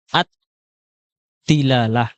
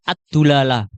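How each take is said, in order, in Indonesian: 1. Suku kata pertama memakai vokal i. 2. Suku kata pertama memakai vokal u. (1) "pembahasan ad-dilalah" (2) "atau dibaca ad-dulalah"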